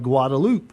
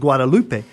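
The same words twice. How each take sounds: First: The name is said with English sounds. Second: The name is said with Spanish sounds. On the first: The name is said without regard to its Spanish origin. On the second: The name is said with respect for its Spanish origin.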